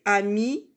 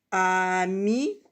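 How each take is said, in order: First: Said in the usual way. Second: AMI with a long held A, then MI; drawn-out syllables. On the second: Shown as a demonstration. Teacher introducing a label word, drawn-out syllables. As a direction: stretch "ami" as a-mi.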